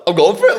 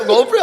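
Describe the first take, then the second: First: Higher, louder excited declaration; firing himself up; pumped up. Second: Much higher, louder excited cry; even more pumped. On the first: Player after the coach's blessing, louder excited declaration. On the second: Player repeating his decision, much higher excited cry. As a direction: let the excitement peak. Pumped after coach's blessing. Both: Retold or imitated.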